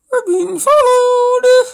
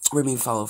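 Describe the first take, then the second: First: Very high, loud, drawn-out wail; mock panicked wail. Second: Said in the usual way. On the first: Reader overplaying the alarm of being followed, mock panicked wail. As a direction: stretch it into a hammed-up cry of alarm. Hammed-up repeat of the story line.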